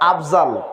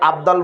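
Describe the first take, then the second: First: The middle consonant sounds like a z. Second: The middle consonant sounds like a d. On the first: "তারপর আফজাল" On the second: "ওখানে কি আবদাল বলি নাকি?"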